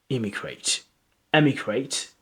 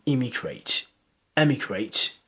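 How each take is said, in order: Both takes have the same delivery.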